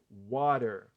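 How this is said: American accent, with the final r sounded. "como eu pronuncio, como os americanos pronunciam"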